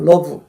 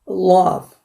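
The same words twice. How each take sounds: First: The L is brief and light, Korean-style. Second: The L is held long with strong force. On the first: The speaker calls it wrong. "지금 그것들 전부 L 발음이 제대로 된 게 아닙니다" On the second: The speaker calls it right. "끈적거림과 좀 길이와 강도가 있어야 돼요"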